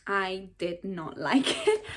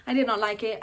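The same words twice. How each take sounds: First: Slow, word-by-word denial broken by a laugh; slow emphatic verdict. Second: Said in the usual way. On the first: Real, not acted. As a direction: spell out the dislike slowly, laughing midway. Blunt verdict, laugh breaks in.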